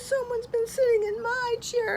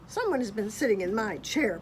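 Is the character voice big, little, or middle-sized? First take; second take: little; big. First: It is said in a little baby voice. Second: It is said in a great big growling voice. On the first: "cried Baby Bear in his little baby voice" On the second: "Papa Bear growled in his great big voice"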